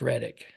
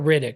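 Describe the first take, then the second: First: The first vowel sounds like 'bed'. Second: The first vowel sounds like 'bid'. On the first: The speaker calls it right. "It's Reddick" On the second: The speaker calls it wrong. "It's not Riddick"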